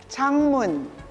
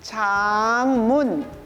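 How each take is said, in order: First: The word is said fast. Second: The word is said slowly.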